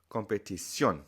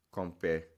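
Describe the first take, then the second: First: Competición landing hard on -CIÓN; stress on final syllable. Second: Competición broken up, com-pe-TI-cion, weight on TI; wrong stress on TI. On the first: Teacher shows the correct form, stress on final syllable. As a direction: say com-pe-ti-SYON for competición, loudest at the end. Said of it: "where to put the loud part of the word". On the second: Teacher shows what not to say, stress on TI. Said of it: "So you don't say". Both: Shown as a demonstration.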